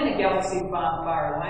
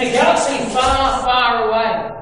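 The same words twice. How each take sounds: First: Said in the usual way. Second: Grand, louder movie-opening delivery; Star Wars opening. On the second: Retold or imitated. Preacher quoting Star Wars to church, grand opening style. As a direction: announce it like an epic film opener. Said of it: "I love how Star Wars says it".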